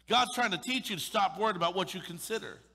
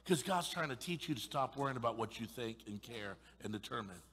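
First: Higher, louder insistence; full-force preaching repeat; forceful preaching. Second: Said in the usual way. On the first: Real, not acted. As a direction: drive the point home.

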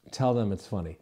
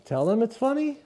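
First: Low, softer statement falling on FUNNY; telling, not asking. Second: Rising high on FUNNY like a question; unsure upspeak. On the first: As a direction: state "funny" as settled fact, pitch dropping. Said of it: "And I'm telling you". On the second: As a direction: ask "funny" timidly, pitch climbing at the end. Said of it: "your voice starts to go up at the end". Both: Shown as a demonstration.

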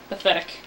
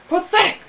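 First: Said in the usual way. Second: Much higher, sharply exclaimed; high, loud outburst of contempt; disgusted exclamation. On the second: Real, not acted. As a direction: burst out with scorn. Disgusted repeat of the word.

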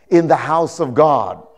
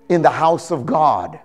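No difference in how they are said.

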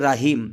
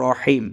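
First: রাহিম with a long open "ra"; wrong long a. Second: রহিম with a short rounded "ro"; correct short vowel. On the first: Teacher shows students the wrong রাহিম, long "raa". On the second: Teacher shows students the correct রহিম, short "ro". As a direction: say রহিম crisply, no long a. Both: Shown as a demonstration. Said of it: "রাহিম না পড়ে এখানে পড়ব রহিম".

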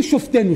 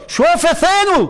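First: "שופטינו" run together as shof-TE-nu, silent shva; wrong pronunciation. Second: "שופטינו" high and drawn out as sho-fe-TE-nu; corrected pronunciation. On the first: Preacher shows what not to say, "שופטינו" as shof-te-nu. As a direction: say "שופטינו" in three syllables, no vowel after the f. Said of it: "אל תגידו". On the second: Preacher insists on the right form, "שופטינו" as sho-fe-te-nu. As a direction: sound a vowel after the f in "שופטינו", insistently. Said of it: "תתעקשו להגיד את זה". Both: Shown as a demonstration.

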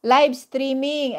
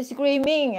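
First: Live streaming said slowly and clearly, each word fixed; slow down and say Live streaming properly; careful correction. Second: Says screaming instead of streaming, the word tripped over; slip into screaming. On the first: Shown as a demonstration. Vlogger corrects her slip for viewers, saying Live streaming slowly and clearly. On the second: Real, not acted. Embarrassed vlogger fumbling her words with viewers, says screaming for streaming. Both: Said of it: "bulol ako".

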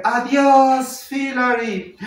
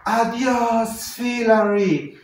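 First: High singsong greeting, drawn out; lady calling out. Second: High, drawn-out holler; man's shouted greeting. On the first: A lady greets a passing cyclist, high drawn-out call. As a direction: call out long in a higher woman's voice. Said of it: "ahora una señora le dice". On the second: A man shouts to a passing cyclist, drawn-out holler. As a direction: call it out long and loud down the street. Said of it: "un señor que le grita". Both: Retold or imitated.

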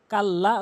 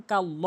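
First: "কাল্লা" with a thin open aa after the l; wrong thin vowel. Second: "কাল্ল" with a rounded, heavy law at the end; correct heavy l. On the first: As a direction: end "কাল্লা" on a light laa. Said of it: "কাল্লা ভুল উচ্চারণ". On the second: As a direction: round the last vowel of "কাল্ল" to aw. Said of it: "সঠিক উচ্চারণ". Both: Shown as a demonstration.

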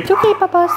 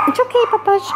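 First: Soothing pet talk. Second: High, gentle reassurance to a dog; calm the dog down sweetly; soothing pet talk. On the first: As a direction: reassure the pet gently. Soothing the dog again. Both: Real, not acted.

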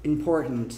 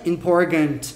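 First: "important" low, with the T swallowed deep in the throat. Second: "important" said as "im-por-gant"; hard G. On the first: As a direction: gulp the second T-syllable of "important" in the throat. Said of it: "um G engolido aqui". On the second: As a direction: put a full, spoken G in place of the T in "important". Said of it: "não é esse gant". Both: Shown as a demonstration.

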